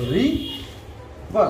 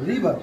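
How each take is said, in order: First: "রি", long pause, then "বা"; syllable by syllable. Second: Said in the usual way. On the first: Shown as a demonstration. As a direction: split into two separate beats, "রি" and "বা". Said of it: "কয়টি syllable উচ্চারণ করতে পারি". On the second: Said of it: "তিন নম্বর উদাহরণটি হলো".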